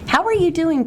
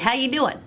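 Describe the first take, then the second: First: It is said warmly and sincerely. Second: It is said quickly and offhandedly. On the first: The speaker really cares how the person is. The speaker calls it right. "Notice the tone, notice the body language" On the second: It is just a passing greeting. The speaker calls it wrong. "As opposed to it being the what's happening type"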